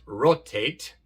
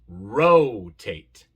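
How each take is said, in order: First: The o is a short, pure Spanish-like vowel. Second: The o is a long, gliding 'oh' sound. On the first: The speaker calls it wrong. "No es rotate" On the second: The speaker calls it right. "No, rotate"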